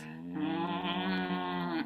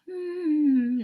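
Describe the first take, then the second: First: A low hum from the back of the throat. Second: An ordinary hum with closed lips. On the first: "do it low and do it in the like the back of your throat" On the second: "instead of humming normally like you'd normally do"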